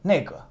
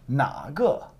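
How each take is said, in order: First: The first syllable has a falling tone. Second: The first syllable has a low dipping tone. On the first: It means that one. "It goes down" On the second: It means which one. "So it's a third tone"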